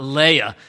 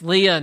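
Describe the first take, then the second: First: The name is said like the princess name Leia. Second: The name is said unlike the princess name Leia. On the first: This is a princess from a distant galaxy. The speaker calls it wrong. "not Leah, ... because Leah is a princess who lived long ago in a distant galaxy" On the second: This is the sister of Rachel. The speaker calls it right. "it's Leah"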